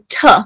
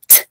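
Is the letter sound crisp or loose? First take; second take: loose; crisp. First: The sound is loose and not precise. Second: The sound is short, crisp and precise. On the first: The speaker calls it wrong. "we might say t" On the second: The speaker calls it right. "a very precise sound"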